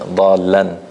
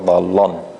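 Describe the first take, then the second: First: The L sound is light and thin. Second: The L sound is heavy and full. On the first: The speaker calls it right. "the lam is soft" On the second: The speaker calls it wrong.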